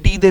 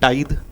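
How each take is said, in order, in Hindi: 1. पहला स्वर 'ee' जैसा बोला जाता है। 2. पहला स्वर 'eye' जैसा बोला जाता है। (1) "कहीं कहीं पे लोग टीदे भी बोलते हैं" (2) "टाइद करेक्ट प्रोनाउंसिएशन होता है"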